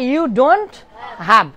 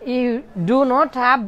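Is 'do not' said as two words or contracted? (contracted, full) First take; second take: contracted; full. First: Do and not are contracted into one syllable. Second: Do and not are said as two full words. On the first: "ডু নটের সংক্ষিপ্ত উচ্চারণ" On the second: "ডু নট"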